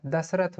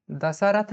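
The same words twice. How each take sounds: First: दशरथ said as dash-rath, middle vowel dropped; दशरथ in two syllables, das-rath; दशरथ clipped to dash-rath; correct pronunciation. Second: दशरथ said as da-sha-rath, every vowel sounded; दशरथ in three syllables, da-sa-rath; दशरथ with the middle a kept; wrong pronunciation. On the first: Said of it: "दशरथ होता है". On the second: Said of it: "दशरथ नहीं होता है". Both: Shown as a demonstration.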